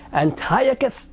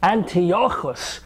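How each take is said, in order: First: The name is pronounced the usual English way. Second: The name is pronounced the Hebrew way.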